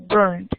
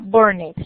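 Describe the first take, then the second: First: The ending is a plain D sound. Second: The ending is said as an extra syllable. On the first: The speaker calls it right. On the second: The speaker calls it wrong. "No se pronuncia"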